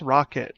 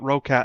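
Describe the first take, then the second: First: The second syllable sounds like 'kit'. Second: The second syllable sounds like 'cat'. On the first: The speaker calls it right. "no, it's Rocket" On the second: The speaker calls it wrong. "I called it Rocat"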